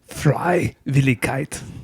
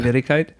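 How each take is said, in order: First: The word is said harshly, with an aggressive tone. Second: The word is said in a calm, ordinary way.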